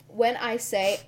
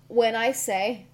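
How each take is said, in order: Both takes have the same delivery.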